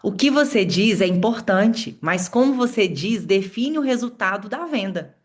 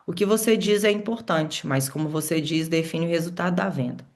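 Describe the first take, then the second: First: It is said with a smile in the voice. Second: It is said without a smile in the voice.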